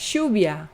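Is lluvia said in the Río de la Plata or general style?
Río de la Plata. It is said in the Río de la Plata style.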